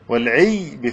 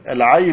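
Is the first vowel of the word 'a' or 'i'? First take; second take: i; a. First: The first vowel is a front 'i' sound. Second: The first vowel is an open 'a' sound. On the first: "والعي بكسر العين" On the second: "العي بفتح العين"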